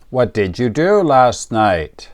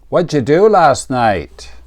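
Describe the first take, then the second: First: Both words 'what did' are said in full. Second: 'What did' is shortened into one syllable. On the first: "Here is a common question" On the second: "American people say"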